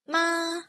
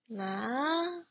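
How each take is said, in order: First: The pitch stays high and level. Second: The pitch starts mid and rises high. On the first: "high and flat" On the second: "it's called a mid-rising"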